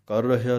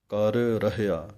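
First: ਕਰ ਰਹਿਆ run together fast as karhya; sloppy ਕਰ ਰਹਿਆ; wrong example. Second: ਕਰ ਰਹਿਆ slow, both r's sounded apart; careful ਕਰ ਰਹਿਆ; correct pronunciation. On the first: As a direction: merge the two r's of ਕਰ ਰਹਿਆ quickly. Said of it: "ਕਰ ਰਹਿਆ ਨਹੀਂ ਕਹਿ ਦੇਣਾ". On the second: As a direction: separate ਕਰ and ਰਹਿਆ slowly. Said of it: "ਦੋਵੇਂ ਰਾਰੇ ਵੱਖਰੇ ਵੱਖਰੇ ਬੋਲਣੇ ਹਨ". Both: Shown as a demonstration.

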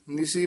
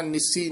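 First: ਨਿਸੀ with a soft single s; soft pronunciation. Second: ਨਿਸੀ with a hard doubled s, "nissi"; hardened mispronunciation. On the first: Teacher showing the soft reading, ਨਿਸੀ with single s. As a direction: say ਨਿਸੀ lightly, no doubled s. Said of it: "ਨਿਸੀ ਪੋਲਾ ਉਚਾਰਨ ਕਰਨਾ". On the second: Teacher showing the mistake, ਨਿਸੀ as "nissi". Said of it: "ਨਿਸੀ ਨਹੀਂ ਕਹਿਣਾ ਹੈ". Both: Shown as a demonstration.

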